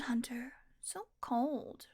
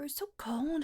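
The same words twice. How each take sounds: First: Pouty whisper. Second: Said in the usual way. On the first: Acted. Whining after being refused supper.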